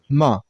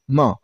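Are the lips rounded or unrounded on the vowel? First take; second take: unrounded; unrounded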